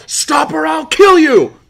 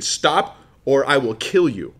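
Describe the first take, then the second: First: Full-force acted scream, high and drawn out; yelled threat. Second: Mock yelled threat. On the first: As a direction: scream the threat slowly at the top of your voice. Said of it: "and I yell". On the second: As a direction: act a threat, slowing down without really yelling. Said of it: "I yell at you again".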